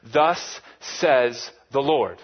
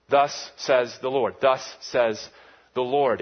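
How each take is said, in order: First: Slow and louder, THUS stretched; "Thus says the Lord" with a long heavy "Thus"; solemn formula. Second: Slow and measured, stress on "Thus"; "Thus says the Lord" weighed out; solemn formula. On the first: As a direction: intone it like a royal decree. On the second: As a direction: declare it gravely. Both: Shown as a demonstration. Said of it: "a formula".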